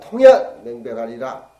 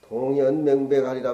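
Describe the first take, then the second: First: The first syllable starts with an aspirated t sound. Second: The first syllable starts with a plain d sound. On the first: The speaker calls it right. "발음을 통으로 해가지고" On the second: The speaker calls it wrong. "왜 그렇게 읽냐?"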